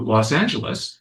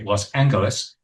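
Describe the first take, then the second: First: The city name has its ordinary present-day pronunciation. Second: The city name has an old-fashioned pronunciation.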